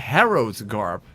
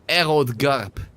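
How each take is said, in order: First: The first word begins with an H sound. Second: The first word begins without an H sound.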